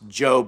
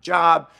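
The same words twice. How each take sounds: First: The vowel is long, rhyming with 'robe'. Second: The vowel is short, rhyming with 'rob'. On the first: The speaker calls it right. "pronounced Job" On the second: The speaker calls it wrong. "not Job"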